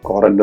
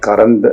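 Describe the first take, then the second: First: The first vowel sounds like 'o', Scottish style. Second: The first vowel sounds like 'uh', standard style. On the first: "Scottish ഉച്ചാരണമാണ്" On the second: "കറന്റ് എന്നാണ് വാക്ക്"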